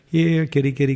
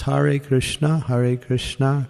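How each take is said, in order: First: The words are rushed and slurred together. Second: Each word is pronounced clearly and fully. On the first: The chanter is hurrying to finish the rounds. The speaker calls it wrong. "What is it not? Boy, I'm really going today. I'm getting my rounds done" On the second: The chanter attends carefully to the name. The speaker calls it right. "clear pronunciation of the name"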